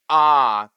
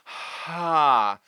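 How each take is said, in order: First: The vowel starts with a sharp glottal catch. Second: Air flows audibly before the vowel begins. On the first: "There is a glottal onset where the vocal cords start together" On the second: "There is an aspirate where we're letting the air move through first"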